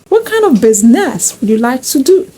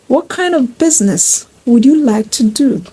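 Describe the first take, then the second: First: Business is stressed away from its first syllable. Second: Business is stressed on its first syllable. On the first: The speaker calls it wrong. "It sounds awkward" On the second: The speaker calls it right. "That is more appropriate"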